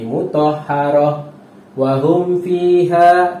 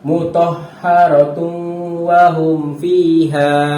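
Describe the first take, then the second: First: The reciter stops briefly partway through the phrase. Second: The reciter reads the phrase without any stop. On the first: The reader stops at the mark, such as when out of breath. The speaker calls it wrong. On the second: The reader continues past the mark. The speaker calls it right.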